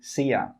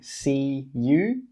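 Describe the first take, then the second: First: The word you is reduced to ya. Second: The word you is said in full. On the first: The speaker calls it right. "we say see ya" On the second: The speaker calls it wrong. "We don't say see you"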